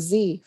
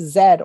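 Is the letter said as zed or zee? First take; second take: zee; zed. First: The letter is said the American way, zee. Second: The letter is said the British way, zed.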